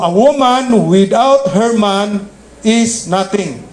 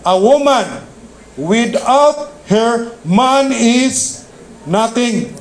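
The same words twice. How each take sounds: First: It is said straight through without pauses. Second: It is said with pauses where commas go.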